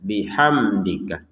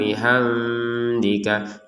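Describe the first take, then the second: First: The m is said clearly and briefly. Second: The m is muffled and indistinct. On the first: The speaker calls it right. "kita baca dengan jelas" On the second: The speaker calls it wrong. "Kalau samar"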